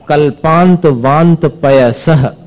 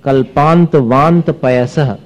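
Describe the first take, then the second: First: कल्पांत वांत पयसह slow, stopping after the visarga; verse paced for a pause. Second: कल्पांत वांत पयसह with a fall and a stop at पयसह; slow verse with a pause; pause at visarga. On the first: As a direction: recite slowly and stop at पयसह. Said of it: "यहां रुक भी सकते हैं आप". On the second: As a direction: recite and rest on the visarga. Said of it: "रुकना ही पड़ेगा विसर्ग होने के कारण". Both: Shown as a demonstration.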